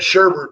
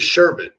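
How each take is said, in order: First: The second syllable has an added R sound. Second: The second syllable has no R sound. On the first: The speaker calls it wrong. "I call it sherbet, but that's wrong" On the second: The speaker calls it right. "it is sherbet"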